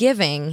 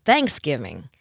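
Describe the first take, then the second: First: "Thanksgiving" with the weight on GIVING; thanks-GIVING; own New York stress. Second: "Thanksgiving" slowly, stressed on THANKS; THANKS-giving, falling away after the first beat; husband's front stress. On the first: Shown as a demonstration. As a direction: say Thanksgiving landing on the second part. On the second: Retold or imitated. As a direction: hit the first part of Thanksgiving hard. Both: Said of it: "he will hit the consonant".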